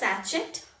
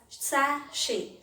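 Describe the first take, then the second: First: The middle sound is ch. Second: The middle sound is sh. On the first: The speaker calls it wrong. "It is not pronounced as sachet" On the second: The speaker calls it right. "It is pronounced as sachet"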